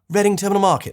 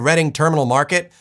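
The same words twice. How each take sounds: First: It has a British accent with a soft R. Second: It has an American accent with a strong R. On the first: The speaker sounds like an outsider. The speaker calls it wrong. "There's that soft R again" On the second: The speaker sounds like a local. The speaker calls it right. "Instead of"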